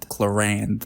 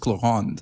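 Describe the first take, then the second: First: The name is said with an English accent. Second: The name is said with a French accent. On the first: "I do not want to do the French accent every time" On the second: "Because it's in French, it's Claron"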